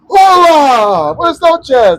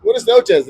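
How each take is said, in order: First: Loud, high, drawn-out mock hello; booming greeting. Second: Polite reply. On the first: Older stranger greets him on the patio, booming. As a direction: holler an exaggerated Spanish greeting. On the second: Retold or imitated. Smoker answers the stranger's hello, polite reply. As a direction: echo the greeting without the boom. His own answer to the greeting.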